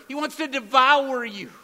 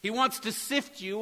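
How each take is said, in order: First: Louder, higher push on "devour"; "devour" punched loud and high, the stronger restatement; loud stress on devour. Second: Said in the usual way. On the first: Shown as a demonstration. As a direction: hammer the word "devour" as the clearer version. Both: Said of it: "or even clearer".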